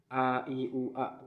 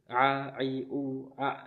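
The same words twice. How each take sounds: First: The vowels start plainly, with a relaxed throat. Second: The vowels start with a tight, squeezed throat.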